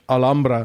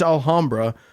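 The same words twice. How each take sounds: First: The name is said with a Spanish pronunciation. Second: The name is said with an English pronunciation. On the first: "or if you're Spanish" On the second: "It's Alhambra"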